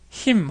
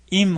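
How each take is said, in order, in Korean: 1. 이 단어는 맨 앞에 분명한 h 소리가 있습니다. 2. 이 단어는 맨 앞에 h 소리가 없습니다.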